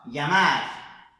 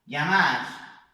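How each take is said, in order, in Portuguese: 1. Começa com um som suave, parecido com ly. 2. Começa com um som suave, parecido com ly.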